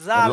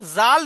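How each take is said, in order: First: The first consonant is made with a light tongue. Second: The first consonant is made with a pressed tongue. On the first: The speaker calls it right. "এটা এই জিভের আগাটা হালকা করে উপরের দাঁতের আগার সাথে লাগান।" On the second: The speaker calls it wrong. "জাল নয়"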